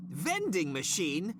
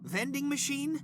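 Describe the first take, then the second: First: "Vending machine?" drawn out slow, dripping scorn; slow mocking repeat. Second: "Vending machine?" jumps high in disbelief; incredulous. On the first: Boss repeats the assistant's offer slowly with contempt. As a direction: stretch out "Vending machine?" as if it's absurd. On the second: Acted. Boss scoffs at the assistant's vending machine offer, high and incredulous.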